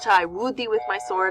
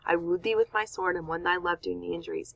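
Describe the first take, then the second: First: It is said in a plain, unapologetic tone. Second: It is said in a softer, apologetic tone.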